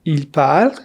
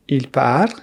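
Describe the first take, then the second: No difference in how they are said.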